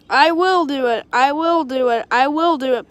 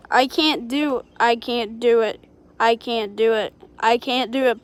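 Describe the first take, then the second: First: Steady, firm chugging chant; determined puffing. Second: Lower, straining, out of breath; puffing engine. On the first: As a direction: puff it out with resolve. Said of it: "puffed Edward". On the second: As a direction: puff out each word with effort. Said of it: "puffed Gordon". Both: A narrator's reading.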